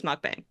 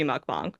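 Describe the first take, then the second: First: "mukbang" with second vowel as in "bang"; film's Westernized pronunciation. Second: "mukbang" with second vowel as in "father"; proper Korean-style pronunciation. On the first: Director settles it for this film, "mukbang" as in "bang". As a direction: say "mukbang" ending like "hang". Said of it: "for this film". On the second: Director admits how it should be, "mukbang" as "bahng". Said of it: "but it should be". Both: Shown as a demonstration.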